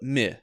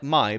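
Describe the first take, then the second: First: The vowel is a short 'i' sound. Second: The vowel is a long 'eye' sound. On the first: The speaker calls it right. "but mi" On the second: The speaker calls it wrong. "not like my"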